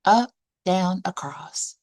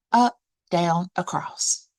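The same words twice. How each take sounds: The two takes are said the same way.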